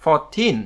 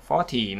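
First: "Fourteen" with a firm second syllable; teacher's clear "Fourteen", end-stressed; stress on TEEN. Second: "forty" with the first syllable stressed; teacher's clear "forty", front-stressed. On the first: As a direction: put the weight on -teen in "Fourteen". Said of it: "trọng âm vào nó". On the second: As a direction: put the weight on "for" in "forty". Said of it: "trọng âm vào âm trước". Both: Shown as a demonstration.

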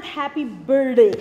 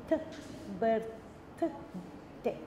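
First: Loud "birthday" with the th dropped, like "burday"; mispronounced birthday. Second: "birthday" in separate sounds with an airy th; clear th. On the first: Teacher showing how people wrongly sing it, "birthday" without th. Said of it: "the way we sing it". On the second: Teacher modelling "birthday" for the class, th carefully pronounced. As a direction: split "birthday" slowly, tongue between teeth for th. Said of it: "I bring it between the teeth". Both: Shown as a demonstration.

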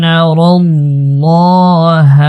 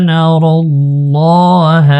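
First: الله with a full, heavy lam, drawn out and falling; heavy lam in Allah. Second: الله with a thick lam and falling end; heavy lam in Allah. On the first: Teacher models for the student: الله with heavy lam. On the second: Teacher repeats the verse for the student: heavy lam in الله. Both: Shown as a demonstration. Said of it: "আল্লাহ শব্দের লাম এটা মোটা হবে".

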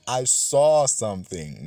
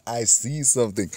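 First: Saw stretched and stressed, slow; "I saw something" with saw held long. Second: See stressed as the wrong present tense; "I see something" with see pointed. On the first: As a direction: lean on saw to mark the past tense. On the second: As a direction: contrast see against saw. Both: Shown as a demonstration.

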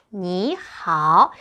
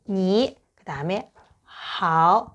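First: Slow 니 하오, second tone then third; third-tone change. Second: Slow 니, pause, slow 하오, both dipping; separate third tones. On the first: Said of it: "이렇게 하면 돼요". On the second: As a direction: give 니 and 하오 each its full third tone. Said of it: "음, 삼성". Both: Shown as a demonstration.

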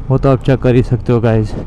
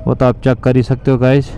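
No difference in how they are said.

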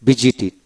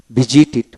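Both takes have the same delivery.

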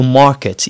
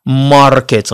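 First: ماركت with the R dropped, "maaket"; soft R. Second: ماركت with a sounded R before K; hard R. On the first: Teacher giving British market, soft R. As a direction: say ماركت with a long open vowel and no R. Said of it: "غنقولوا ماركت". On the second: Teacher showing learners what to avoid, hard R. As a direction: roll out the R in ماركت. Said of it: "ما غنقولوش ماركت". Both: Shown as a demonstration.

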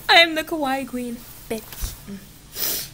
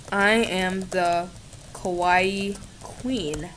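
First: Higher, bolder take on Kawaii Queen; higher sassy declaration. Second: Slow, drawn-out and quieter; slow proud declaration. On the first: Declaring herself the Kawaii Queen again, higher and sassier. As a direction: fling the title out proudly. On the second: Declaring herself the Kawaii Queen, slow and proud. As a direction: savour each word of the title. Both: Shown as a demonstration. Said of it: "Yes, I do".

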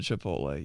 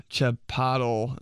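First: Said in the usual way. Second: "chipotle" said as "chi-pot-ul"; mispronounced Chipotle. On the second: Retold or imitated. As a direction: swap the ending of "chipotle" to -tul. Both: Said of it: "instead of Chipotle".

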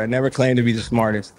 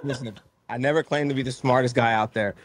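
First: Said in the usual way. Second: Soft words through laughter; laughing while talking. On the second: Real, not acted. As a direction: chuckle through the line. Laughing after host's joke.

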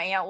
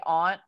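First: AUNT said like "aint", Southern style; Southern "Aunt" with a fronted, gliding vowel; Southern pronunciation. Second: AUNT with a broad AH, "ahnt"; Maryland pronunciation. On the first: Speaker showing her word down south, Southern pronunciation. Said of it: "when I get down south". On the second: Speaker showing her usual word in Maryland, broad pronunciation. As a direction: say "aunt" to rhyme with "want". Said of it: "if I'm in Maryland". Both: Shown as a demonstration.

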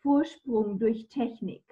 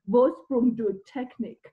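First: "Vorsprung durch Technik" said in clean native German, a touch slower; German pronunciation of "Vorsprung durch Technik"; proper German. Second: Put-on "Vorsprung durch Technik" mangled in a heavy English accent, a bit slower and louder; mock a Brit butchering "Vorsprung durch Technik" in an English accent; imitating an English bloke's bad German in an English accent; terrible English accent. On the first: Shown as a demonstration. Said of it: "uses this German phrase". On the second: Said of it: "in a terrible English accent".

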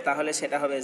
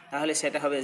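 No difference in how they are said.

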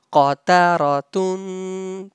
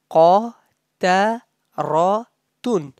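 First: Qataratun as one connected word, last syllable held; said together. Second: Qataratun slowly in four separate pieces; syllable by syllable. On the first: Teacher showing students the syllables joined, said together. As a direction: join Qataratun up, lengthening the tun. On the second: Teacher breaking the word up for students, syllable by syllable. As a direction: pause between qa, ta, ra and tun. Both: Shown as a demonstration. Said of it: "When you say together".

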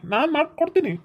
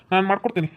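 First: ಮಾಡ್ಕೊಡ್ತೀನಿ pitched much higher and pressed hard; insistent vow with ಮಾಡ್ಕೊಡ್ತೀನಿ hit high; emphatic promise. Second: Said in the usual way. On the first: Acted. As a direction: swear it, driving ಮಾಡ್ಕೊಡ್ತೀನಿ up high with a firm fall. Promises marriage, repeating it.

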